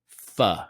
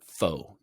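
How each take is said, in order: First: The word is not pronounced like faux. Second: The word is pronounced like faux. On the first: The speaker calls it right. "Pho, not faux" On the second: The speaker calls it wrong. "Don't say faux. Makes you look kind of silly"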